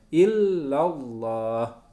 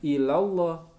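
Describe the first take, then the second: First: The L sound is held long and doubled. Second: The L sound is short and single. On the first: The speaker calls it right. "ada syidahnya lamnya" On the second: The speaker calls it wrong. "bukan ilallah"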